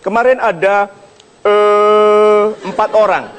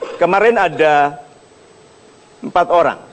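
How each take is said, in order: First: The pause is filled with a hesitation sound. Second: The pause is silent with no hesitation sound. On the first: The speaker seems to be searching for words. The speaker calls it wrong. "E e e tanda Anda berpikir" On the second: The speaker sounds composed and authoritative. The speaker calls it right. "kalau Anda mau anggun, diam"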